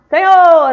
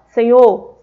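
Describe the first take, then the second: First: It is shouted at a very high volume. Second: It is said at a normal speaking volume. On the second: "pode ser em tom normal"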